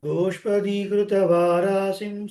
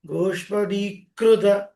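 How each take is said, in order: First: గోష్పదీకృత with a light, undoubled "kru"; simple, soft kru. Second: గోష్పదీకృత with a doubled "kkru"; hard kru, wrongly. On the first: Teacher correcting, గోష్పదీకృత said smoothly with single "kru". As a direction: hold the "dee", then an easy "kru" in గోష్పదీకృత. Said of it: "సరళంగా పలకాలి". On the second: Teacher showing the mistake, గోష్పదీకృత with heavy "kkru". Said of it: "తప్పు". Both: Shown as a demonstration.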